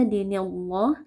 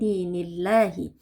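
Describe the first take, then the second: First: The lam of Allah is heavy and thick. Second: The lam of Allah is light and thin. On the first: The speaker calls it wrong. "tidak baca" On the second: The speaker calls it right. "lafaz jalalahnya kita baca tipis"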